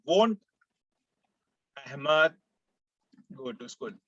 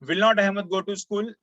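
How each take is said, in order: First: 'Will not' is contracted into one short word. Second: 'Will not' is said as two full words. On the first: "तो आप short में ऐसा बोल सकते हैं" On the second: "इसको ऐसा बोलने के बजाय"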